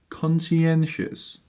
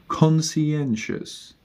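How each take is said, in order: The two takes are said the same way.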